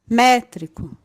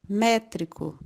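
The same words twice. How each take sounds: First: The first syllable is said with extra force. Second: The first syllable is only higher in pitch.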